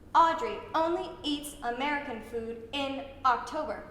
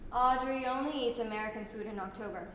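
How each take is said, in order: First: Each word starts with a sharp glottal catch. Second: The words flow into each other without breaks. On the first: "with the glottal stop in front of every word" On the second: "Now let's smooth it out"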